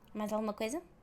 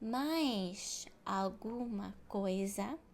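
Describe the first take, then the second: First: It is fast, with the words run together. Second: It is slow, with each word clearly separated. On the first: This is how native speakers really talk. "natural fast like native speakers" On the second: This is how textbooks and teachers speak. "slow, robotic"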